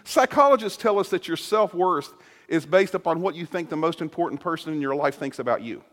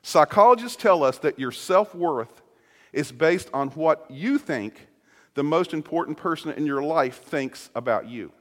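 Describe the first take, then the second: First: It is said at a normal pace. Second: It is said more slowly.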